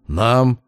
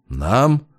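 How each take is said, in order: First: «Нам» pressed firmly as a statement; emphatic repeat. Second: Mildly mocking echo on «Нам», rising; mocking question. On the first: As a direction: repeat «Нам» with insistent weight. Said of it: "с нажимом повторил я". («Нам» — с нажимом, утвердительно) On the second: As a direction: ask «Нам?» back with a touch of derision. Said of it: "насмешливо переспросил он". («Нам?» — насмешливо переспрашивая) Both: A narrator's reading.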